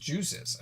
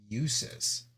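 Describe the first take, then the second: First: The name begins with a J sound. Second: The name begins with a Y sound. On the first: "Like juice, and then is at the end" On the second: "it is supposed to be a ya?"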